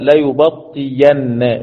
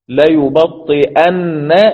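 First: The middle consonant is a y sound. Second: The middle consonant is a glottal stop.

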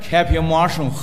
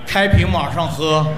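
First: The phrase is said slowly. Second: The phrase is said very slowly. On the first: "说慢点" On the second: "再慢一点"

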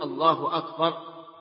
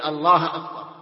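First: Allah ends with a u vowel. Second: Allah ends with an a vowel. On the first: The speaker calls it right. "لا بد أن يقول الله أكبر" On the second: The speaker calls it wrong. "أن ينصب لفظ الجلالة"

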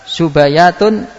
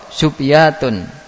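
First: The b is followed by an a vowel. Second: The b is followed by no vowel. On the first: "wajib untuk memfatha" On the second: "atau mensukun"

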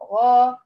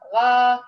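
First: The long vowel sounds heavy and full. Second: The long vowel sounds light and thin. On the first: The speaker calls it right. "هي غا غا، فالألف مرافقة للحرف الذي قبلها في التفخيم" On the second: The speaker calls it wrong. "بيقول طغى غا، هي ليس غا"

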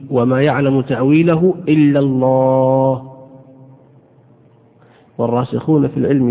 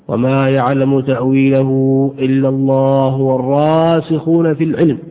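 First: There is a pause right after the word Allah. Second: It runs on without a pause after Allah. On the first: Only God knows its interpretation. "هذا الوقف على المعنى الأول" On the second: Those firm in knowledge also know its interpretation. "يكون الوصل في الآية الكريمة"

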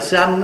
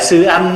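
First: The syllables are rushed together, sounding like one. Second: The two syllables are said separately and clearly. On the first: The speaker calls it wrong. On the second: The speaker calls it right.

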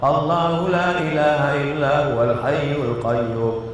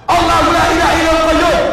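First: It is recited quietly and softly. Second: It is recited loudly and forcefully. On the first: The speaker calls it wrong. "Dia baca pelan-pelan" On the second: The speaker calls it right. "setahu saya bacanya kuat"

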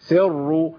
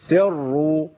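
No difference in how they are said.

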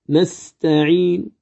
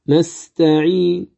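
The two takes are said the same way.

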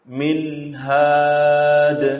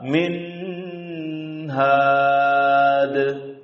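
First: The n carries a short, unlengthened nasal sound. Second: The nasal sound on the n is drawn out long. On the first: The speaker calls it right. "Man keluar guna dari khaisum dengan tanpa memanjangkannya" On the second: The speaker calls it wrong. "Juga salah min had. Panjangkan dari panjang kuning semestinya"

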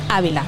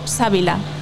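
First: The name begins with a vowel sound. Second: The name begins with an s sound. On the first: The speaker calls it right. "Ávila, como la provincia" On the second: The speaker calls it wrong. "lo estaba diciendo fatal, porque yo tengo Sávila"

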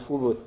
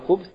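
First: The b is followed by a short u vowel. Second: The b has no vowel after it. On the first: "на ней есть дамма" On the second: "ба на ней есть сукун"

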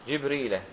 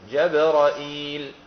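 First: Both first syllables have i; there is no hamza. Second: Open a vowels, then a hamza with long i. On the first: "فبكسر الجيم وبكسر الراء" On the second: "بفتح الجيم والراء والهمزة ... وهمزة بعدها مكسورة وبعدها ياء"

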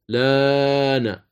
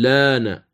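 First: The vowel after the L is held medium. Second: The vowel after the L is held short. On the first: "تمد بالأوجه الثلاثة" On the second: "تمد بالأوجه الثلاثة"

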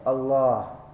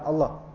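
First: The vowel before the final h is lengthened. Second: The vowel before the final h is short. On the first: The speaker calls it right. "di antara lam dan ha agak panjang sedikit ya" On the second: The speaker calls it wrong. "Bukan Allah. Salah kan?"

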